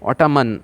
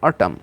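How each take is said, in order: First: It ends with a sounded n. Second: It ends on m with no n. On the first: The speaker calls it wrong. "অটামান এমন কিন্তু হবে না" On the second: The speaker calls it right. "এন আছে ঠিকই, কিন্তু এর উচ্চারণ হচ্ছে না"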